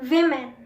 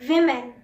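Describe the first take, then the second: Both takes have the same delivery.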